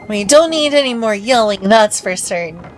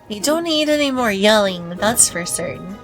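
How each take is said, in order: First: It is said more loudly. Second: It is said more softly.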